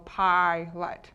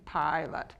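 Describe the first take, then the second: First: Slow demo. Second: Said in the usual way. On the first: Shown as a demonstration. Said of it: "So pilot".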